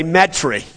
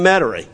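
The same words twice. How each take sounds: First: "Metairie" squeezed down to "MET-ree"; New Orleans local pronunciation. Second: Said in the usual way. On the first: Shown as a demonstration. Preacher showing how a New Orleans local says it, "Metairie" as MET-ree. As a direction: say "Metairie" the New Orleans way, dropping the middle vowel. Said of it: "if I really sounded like that, I'd say". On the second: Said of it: "if I really sounded like that".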